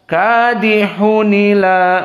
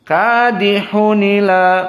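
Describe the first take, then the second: No difference in how they are said.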